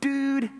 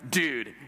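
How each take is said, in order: First: The pitch stays high and level. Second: The pitch moves instead of staying high.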